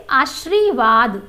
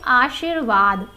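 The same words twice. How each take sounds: First: आशीर्वाद said slowly and loud, the wrong way; the incorrect आशीर्वाद, slow; wrong pronunciation. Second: आशीर्वाद said carefully, the right way; correct pronunciation. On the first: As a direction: show the mistaken आशीर्वाद. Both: Shown as a demonstration. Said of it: "इसका शुद्ध रूप होता है".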